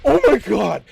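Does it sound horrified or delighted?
horrified. It sounds horrified and offended.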